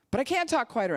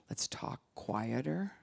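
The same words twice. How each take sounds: First: High, loud complaining retort; loud protest. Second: Softer and slower, calming; soft, slow, settling voice; talking quieter. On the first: Retold or imitated. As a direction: shout it back in protest. Retorting when asked to quiet down. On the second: Shown as a demonstration.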